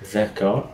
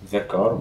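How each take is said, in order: First: The word 'the' is pronounced 'thuh'. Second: The word 'the' is pronounced 'thuh'.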